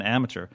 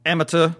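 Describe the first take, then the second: First: Said in the usual way. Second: Put-on "Amateur" in Scottish accent, louder and higher, r dropped; punchy imitation of a Scottish match call; Scottish commentator. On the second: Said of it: "the Scottish guy kept saying".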